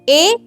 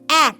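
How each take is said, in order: First: It is said as a long 'ay' vowel. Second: It is said as a short 'a' vowel. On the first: This is the letter's name. "हे ए आहे" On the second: This is the letter's sound. "अक्षरांचं नाव आणि उच्चार दोन्हीही वेगळे असतात"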